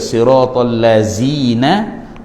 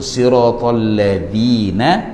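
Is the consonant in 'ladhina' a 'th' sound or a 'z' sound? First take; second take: z sound; th sound. First: The consonant is a buzzing 'z' sound. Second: The consonant is a voiced 'th' sound. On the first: The speaker calls it wrong. "pastinya bunyi seperti zai" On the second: The speaker calls it right. "itu zal, bukan zai"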